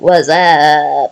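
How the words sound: It is said like the Scary Movie 'wassup'.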